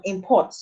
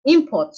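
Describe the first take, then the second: First: ImPORT, weight on the second syllable; "import" as a verb, stressing "port"; light "im", stressed "port" in "import". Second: IMport, first syllable punched high and loud; "import" as a noun, front-stressed. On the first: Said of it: "stress has shifted from the first syllable". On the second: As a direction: hit "im" in "import", let "port" fall. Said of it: "the stress is on the first syllable". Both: Shown as a demonstration.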